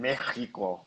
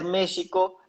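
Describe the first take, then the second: First: It is said with a Spanish accent from Spain. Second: It is said in the original native way. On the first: This is how people from Spain say it. "españoles le dicen México" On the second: This is how the name should properly be said. "se debería pronunciar México"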